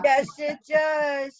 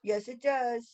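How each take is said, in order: First: Emphatic shout. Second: Softer repeat. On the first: Answering emphatically. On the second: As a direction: drop it back down quietly. Repeated softly. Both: Real, not acted.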